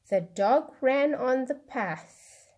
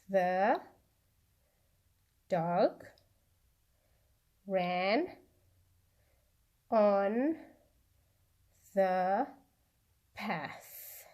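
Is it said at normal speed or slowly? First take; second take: normal speed; slowly. First: It is said at normal speed. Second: It is said slowly.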